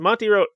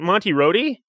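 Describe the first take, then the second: First: The second word is one syllable, rhyming with road. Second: The second word is two syllables, ending in ee. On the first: The speaker calls it wrong. "A lot of people pronounce it Road" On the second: The speaker calls it right. "Monty Rhodey, yes"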